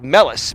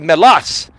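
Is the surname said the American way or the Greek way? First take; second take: American; Greek. First: The surname is said with American pronunciation. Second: The surname is said with Greek pronunciation. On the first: This is the adapted form most people use. "that's the American way" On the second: This is the original form of the name. "my last name is actually Melas"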